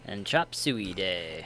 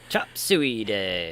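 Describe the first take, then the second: First: It is said flatly, without much energy. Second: It is said with more energy and enthusiasm.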